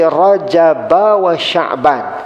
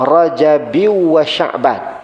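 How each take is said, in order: First: The b in Rajab is followed by an a vowel. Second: The b in Rajab is followed by an i vowel. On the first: "Rajab itu dibaca dengan baris atas" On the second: "Ba itu ada yang baca dengan baris bawah"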